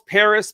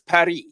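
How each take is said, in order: First: It is said with an American English pronunciation. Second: It is said with a French pronunciation.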